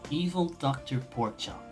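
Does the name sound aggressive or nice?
nice. The name is said in a polite, nice tone. "Let me say it in a nice way"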